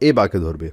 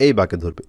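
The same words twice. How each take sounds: The two takes are said the same way.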